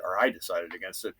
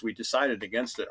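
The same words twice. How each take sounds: First: I lifted and stressed, correcting. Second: Said in the usual way. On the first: Shown as a demonstration. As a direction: lean on I, rising.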